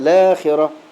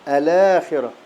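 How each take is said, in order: First: The word begins directly with the L sound. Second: The word begins with a vowel before the L. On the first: The reading treats the moved vowel as real. "فلا تبدأ بهمز الوصل" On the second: The reading counts the moved vowel as not changing the start. "نبدأ بهمز الوصل"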